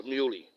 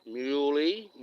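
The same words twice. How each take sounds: First: "muley" said slowly as MEW-lee; teaching muley. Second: "Muley" repeated a bit louder with a rising tune; repeating muley. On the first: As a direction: spell out "muley" clearly for the listener. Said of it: "got it?". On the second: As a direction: say "Muley" again as the answer to be learned. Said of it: "Got it?". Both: Shown as a demonstration.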